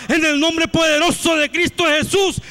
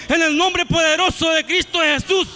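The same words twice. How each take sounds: The two takes are said the same way.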